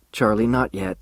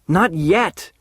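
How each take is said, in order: First: Said in the usual way. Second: "Not yet!" thrown back loud and higher; shouted. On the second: A narrator's reading. Charlie shouting her words back at Alice. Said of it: "I shouted".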